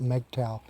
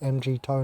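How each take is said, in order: First: The ending does not sound like 'tow'. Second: The ending sounds like the word 'tow'. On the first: It carries no meaning. The speaker calls it wrong. "is just pronouncing the acronym weirdly" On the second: The men are towing the women along. The speaker calls it right. "I call it M G T O W because we're towing them"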